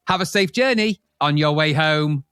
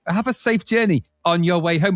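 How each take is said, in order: First: Slow flat robot voice; a machine voice, slowly; robotic voice. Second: Sing-song robot announcement; robotic machine voice. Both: Retold or imitated. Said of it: "in this kind of deaf robotic voice".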